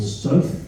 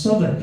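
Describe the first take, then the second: First: Southwick said as spelt, South plus Wick; phonetic reading. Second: Southwark squashed into one short name, SUTH-uck; local pronunciation. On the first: Shown as a demonstration. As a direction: read Southwick out clearly as two words. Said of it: "phonetically and clearly say words". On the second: Retold or imitated. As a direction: say Southwark the local way, not as spelt. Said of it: "it's pronounced Southwark".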